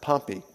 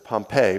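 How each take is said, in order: First: The name sounds different from the city. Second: The name sounds like the volcano-destroyed city. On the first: The speaker calls it right. "The general's name is pronounced Pompey" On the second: The speaker calls it wrong. "some people will pronounce that as Pompeii"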